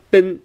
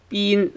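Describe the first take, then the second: First: "bin" with a short English i; the mistaken short-vowel "bin". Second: "bin" with a long ee, like been; high, held "bin" rhyming with seen. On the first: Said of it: "it's not bin". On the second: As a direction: stretch the vowel of "bin" into a high ee. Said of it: "long E sound". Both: Shown as a demonstration.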